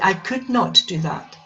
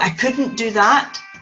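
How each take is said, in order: First: 'Could not' is said as two full words. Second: 'Could not' is contracted into one word. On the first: This is the correct, careful way of saying it. "correctly you should say" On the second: This is the everyday way of saying it. "Normally we say"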